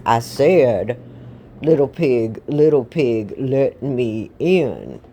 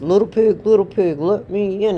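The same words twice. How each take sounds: First: Slow, heavy, insistent wolf voice; big bad wolf losing patience; menacing wolf. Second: Louder, raised wolf call; storybook wolf, loud and insistent; demanding wolf. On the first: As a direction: repeat it as a drawn-out threat. Wolf repeats demand, more menacing. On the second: Acted. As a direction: call through the door as the wolf.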